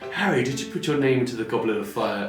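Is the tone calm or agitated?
calm. It is asked in a calm voice.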